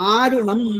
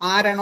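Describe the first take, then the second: First: The second vowel is an 'u' sound. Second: The second vowel is an 'a' sound. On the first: This is the original form of the name. "ശരിക്കത് ആരുണ" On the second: This is how some local people say the name. "ആരണം എന്ന് ചിലർ പറയും, മലയാളികൾ അങ്ങനെ പറയും"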